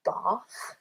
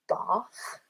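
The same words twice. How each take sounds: First: It is said in a British accent. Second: It is said in a British accent.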